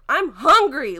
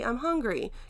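First: It is said in an exasperated, irritated tone. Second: It is said in a calm, casual tone. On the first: The speaker is upset and impatient about being hungry. "Like, oh my gosh" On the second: A simple, relaxed request to stop for food. "hey, I'm hungry. Can we stop somewhere?"

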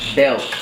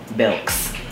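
First: The name ends without an s sound. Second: The name ends with an added s sound. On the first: This is the store's official name. "So it says store name Belk" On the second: This is how the community commonly says it.

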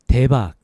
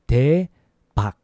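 First: It is said quickly. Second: It is said slowly.

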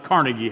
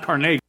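First: The name is said the commonly heard way. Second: The name is said the original, less familiar way. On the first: The speaker calls it wrong. "many of us pronounce it Carnegie Hall" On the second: The speaker calls it right. "but it's actually pronounced Carnegie"

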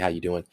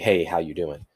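First: It is a casual, passing courtesy greeting. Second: It is a sincere, genuinely interested greeting.

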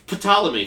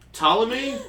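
First: The initial P is pronounced. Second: The initial P is silent. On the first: "fuck you, it's there now" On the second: "There's a silent P"

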